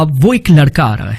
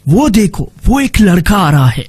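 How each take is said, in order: First: Said in the usual way. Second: Dramatic reading. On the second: Shown as a demonstration. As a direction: make the line a little film scene. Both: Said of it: "تھوڑا سا اس میں ڈرامائی شکل دینی ہے".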